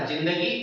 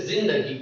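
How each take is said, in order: First: Said in the usual way. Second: जिंदगी with a buzzing z for the first sound; Urdu pronunciation. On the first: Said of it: "हमारा कहना था". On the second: Shown as a demonstration. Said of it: "और वे कहते".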